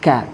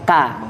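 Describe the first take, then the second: First: The k is released with a puff of breath. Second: The k is released without a puff of breath. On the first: The speaker calls it right. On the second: The speaker calls it wrong. "bukan seperti kanya orang Indonesia"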